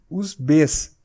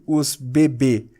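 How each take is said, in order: First: The letter name is said once with final s. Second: The letter name is said twice in a row. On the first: The speaker calls it right. "mas sim" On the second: The speaker calls it wrong. "eu não pronuncio"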